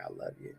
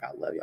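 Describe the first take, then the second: First: Breathy whispered I love you; whispered reply. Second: Low, soft voice of a smiling father; lightly voiced dad, much lower and softer; dad's voice. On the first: Retold or imitated. Answering dad in the dream, whispered. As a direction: whisper it back, barely audible. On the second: Dream father telling his son he loves him, low and soft.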